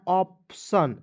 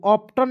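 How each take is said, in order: First: ऑप्शन said with a clear SH sound; ऑप्शन slowly, with the SH clearly heard; correct pronunciation. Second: ऑप्टन said with a hard T, as the mistake; ऑप्टन with a plain T, the wrong form; wrong pronunciation. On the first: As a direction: model ऑप्शन properly, with SH and not T. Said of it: "इसे पढ़ना है ऑप्शन". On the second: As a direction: read ऑप्टन the wrong way, with a T sound. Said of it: "ऑप्टन नहीं पढ़ना है". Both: Shown as a demonstration.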